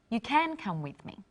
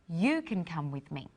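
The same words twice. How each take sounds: First: The stress is on "can". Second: The stress is on "you".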